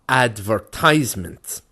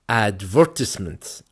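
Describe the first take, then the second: First: It is said with an American pronunciation. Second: It is said with a British pronunciation.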